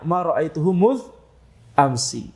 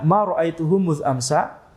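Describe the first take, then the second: First: The word 'ams' ends with an i vowel. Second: The word 'ams' ends with an a vowel. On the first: This is the dialect of the people of Hijaz. "Adapun penduduk Hijaz akan membacanya" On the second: This is the dialect of a small part of Banu Tamim. "Maka ini dibaca ma ra'aituhu muz amsa. Dibaca amsa"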